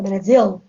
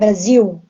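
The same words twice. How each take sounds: First: It is said with a European Portuguese accent. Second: It is said with a Brazilian accent.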